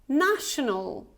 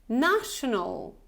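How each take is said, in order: Both takes have the same delivery.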